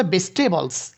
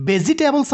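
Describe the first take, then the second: First: ভেজিটেবলস squeezed to "bes-te-bols"; syncope, i dropped. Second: ভেজিটেবলস with every syllable, "be-zi-te-bols"; unshortened form. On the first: Teacher shows students the short form, ভেজিটেবলস as "bestebols". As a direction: leave out the i in ভেজিটেবলস. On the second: Teacher gives students the full word, ভেজিটেবলস as "be-zi-te-bols". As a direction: sound the i in ভেজিটেবলস. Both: Shown as a demonstration. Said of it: "ইর উচ্চারণটাকে".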